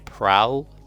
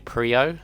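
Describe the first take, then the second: First: The name sounds like 'prowl', rhyming with owl. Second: The name sounds like 'pree-oh', rhyming with trio. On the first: This is how other people say the name. "Grunty and others say your boy Prowl" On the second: This is the speaker's own way of saying the name. "I call him your boy Prio"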